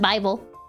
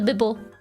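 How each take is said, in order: First: The first vowel sounds like 'eye'. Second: The first vowel sounds like in 'bib'. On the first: "I know it's pronounced Bible" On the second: "I like calling it the Bible"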